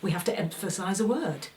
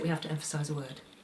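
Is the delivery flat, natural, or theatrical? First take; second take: natural; flat. First: It has moderate, lively, conversational energy. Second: It is low-energy, flat and one note. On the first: The speaker calls it right. "to actually say" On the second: The speaker calls it wrong. "if I under-energise it"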